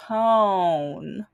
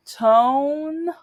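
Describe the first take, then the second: First: Tone said low and rising. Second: Tone said high. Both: Shown as a demonstration. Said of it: "in America, mm, tone".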